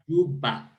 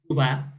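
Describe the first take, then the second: First: The word is said with a marked stress. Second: The word is said without a marked stress. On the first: It means a pocket. "there is a stress here" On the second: It names the South Sudanese capital city. "The capital is Juba"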